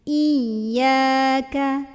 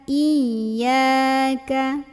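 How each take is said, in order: The two takes are said the same way.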